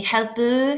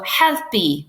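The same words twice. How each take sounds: First: Helpu with a rounded U sound at the end, the common mistake; wrong pronunciation. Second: Helpu slow, ending clearly in an E sound as HEL-pee; correct pronunciation. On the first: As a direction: demo the wrong helpu ending in U. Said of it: "a lot of people say helpu". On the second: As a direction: slowly model helpu with an E ending. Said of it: "you're saying E at the end". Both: Shown as a demonstration.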